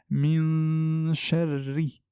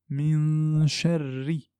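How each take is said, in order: The two takes are said the same way.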